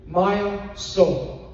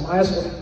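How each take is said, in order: First: It is said slowly, as two clear words. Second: It is said fast, the words running together.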